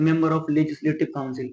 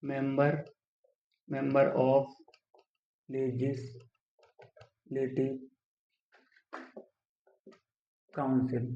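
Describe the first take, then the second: First: Said in the usual way. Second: Very slow, softer, broken by long pauses; dictating while writing. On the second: Shown as a demonstration. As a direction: murmur it piece by piece while writing. Writing the term out while saying it. (लिखते हुए धीमे, टुकड़ों में)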